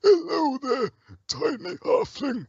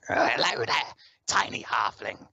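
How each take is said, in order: First: Very high, strained creature voice with a slow finish; troll character voice. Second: Rasping goblin voice, slow on the last words; throaty, drawn-out creature greeting; raspy goblin. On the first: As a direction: put on a high game-troll voice, drawing out the last words. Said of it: "we've got a troll, and he's like". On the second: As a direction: rasp it out like a little goblin. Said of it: "he's got a very raspy voice". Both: Acted.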